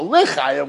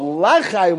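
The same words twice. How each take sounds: First: L'Chaim said slowly with a short schwa, li-CHAIM; shva pronunciation. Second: L'Chaim said slowly with an open a, la-CHAIM; patach pronunciation. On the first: Teacher showing students the correct vowel, slow schwa. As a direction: say L'Chaim as lə-chaim, the first vowel barely there. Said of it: "L'Chaim with a Shva". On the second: Teacher showing students the wrong vowel, slow open ah. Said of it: "But L'Chaim with a Pasach". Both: Shown as a demonstration.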